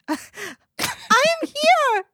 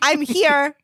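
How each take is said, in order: First: The words are said in a panicked, odd voice. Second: The words are said in a calm, normal voice. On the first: "I said it like, ... in this panicked voice" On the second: "I didn't even say it like"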